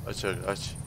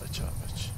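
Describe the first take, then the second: First: Said in the usual way. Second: Whisper. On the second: Real, not acted. Whispered vs voiced repeat.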